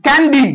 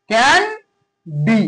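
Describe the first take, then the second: First: Said in the usual way. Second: candy drawn out as can, long pause, ডি; can held and rising, then a gap before ডি; syllable split. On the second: Shown as a demonstration. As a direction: break candy very slowly into two separate syllables. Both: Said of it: "এগুলোকে ভাগ করলে".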